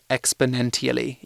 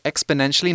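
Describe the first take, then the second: First: The consonant before the ending sounds like t. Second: The consonant before the ending sounds like sh. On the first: The speaker calls it wrong. "not exponentially. Even though it has a T" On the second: The speaker calls it right. "it's exponentially, ... we give it a sh sound"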